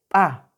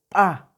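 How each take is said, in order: Both takes have the same delivery.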